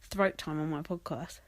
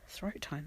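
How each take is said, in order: First: Said in the usual way. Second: "Throat time?" much softer, a quizzical rising double-take; puzzled echo. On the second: Real, not acted. Noticing her own slip on the podcast, quiet amused echo. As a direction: repeat "Throat time?" under your breath, amused. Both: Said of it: "That sounds rude".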